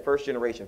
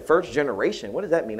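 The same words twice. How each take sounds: First: Said in the usual way. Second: Slightly higher, puzzled question on FIRST GENERATION; puzzled query. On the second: Retold or imitated. Godsister queries an unfamiliar term, mildly puzzled. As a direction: ask what "First generation" means, pitched up, mildly baffled.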